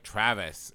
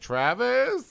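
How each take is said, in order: First: The pitch falls at the end of the name. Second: The pitch rises at the end of the name. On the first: It is a statement. The speaker calls it right. "make it a declarative" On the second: It is a question. The speaker calls it wrong. "instead of"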